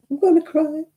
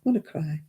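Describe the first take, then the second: First: Higher, whiny pretend wail; hammed-up tearful whine; mock whimper. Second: Said in the usual way. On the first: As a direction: play at being about to cry. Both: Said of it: "Oh, I'm gonna be sad".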